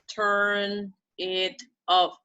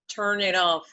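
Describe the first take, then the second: First: The three words are said separately. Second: The three words are linked together. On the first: The speaker calls it wrong. "It's not" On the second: The speaker calls it right. "we have to make it like one phrase"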